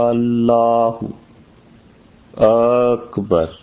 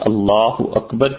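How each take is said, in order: First: An alif vowel is drawn out very long. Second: The vowels are held at normal length. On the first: The speaker calls it wrong. "یہ جو الف کو کھینچنا ہے غلط ہے" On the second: The speaker calls it right. "اللہ اکبر کی بجائے"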